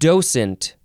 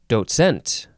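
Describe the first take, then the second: First: The stress is on the first syllable. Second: The stress is on the second syllable.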